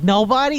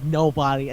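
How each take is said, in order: First: Rising, disbelieving nobody?; stunned echo of the bad news; incredulous question. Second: Said in the usual way. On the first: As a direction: ask "Nobody?" in shock with a big upward lift. Guy learns no fairy fits him.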